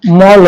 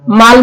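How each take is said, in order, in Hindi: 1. स्वर एक गोलाकार अंग्रेज़ी-शैली का 'aw' ध्वनि है। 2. स्वर एक सादा खुला 'aa' ध्वनि है। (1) "मॉल होता है" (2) "माल नहीं होता है"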